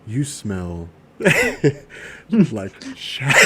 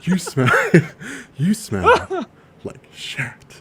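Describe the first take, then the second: First: Very slow, drawn-out delivery. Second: Whispered, a little higher; whispering. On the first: Acted. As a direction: drag each word out slowly. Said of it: "imagine a voice comes on". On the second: Shown as a demonstration. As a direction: breathe it out as a whisper. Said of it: "you whisper it".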